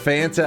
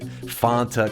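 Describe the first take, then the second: First: The word is said with a non-Texan pronunciation. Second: The word is said with a Texan pronunciation. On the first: "for all you guys out there that get angry when I said Fanta" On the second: "for my for my people in Texas, they know Fanta's the way"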